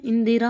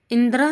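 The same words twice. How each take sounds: First: इंदिरा with middle i, in-di-raa; correct form. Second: इंदिरा without middle i, indra; wrong form. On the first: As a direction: sound all three syllables of इंदिरा. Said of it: "होता है". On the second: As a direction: drop the middle vowel of इंदिरा. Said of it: "नहीं होता है". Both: Shown as a demonstration.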